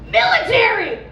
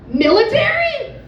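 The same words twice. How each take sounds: First: The word is screamed at full volume. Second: The word is called out fairly loudly. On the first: "And he just screams" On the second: "yells to the guy with the AirPods and goes"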